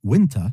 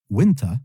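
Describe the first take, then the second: No difference in how they are said.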